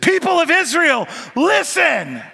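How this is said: It is said with urgency.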